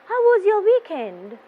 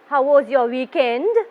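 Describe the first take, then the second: First: The voice falls at the end of the question. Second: The voice rises at the end of the question. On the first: The speaker calls it right. "It will be going down" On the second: The speaker calls it wrong. "You never say, ... It is not going up"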